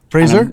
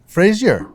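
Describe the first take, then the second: First: The name rhymes with razor. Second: The name is said the American way, Frazier. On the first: The speaker calls it right. "you get my name right every time" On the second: The speaker calls it wrong. "All the Americans say Frazier"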